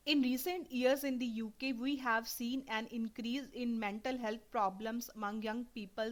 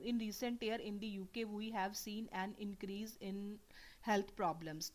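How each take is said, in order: First: Slow, deliberate test reading, every word clear; careful read aloud. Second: Slow, whispered reading that drops the word mental; skipping a word. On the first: Teacher reading a PTE passage to students, slow and clear. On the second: Teacher showing students how skipping a word sounds, whispered and slow. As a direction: read it under your breath and leave out mental. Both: Shown as a demonstration. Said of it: "मैं यहाँ पे mental को skip कर रही हूँ".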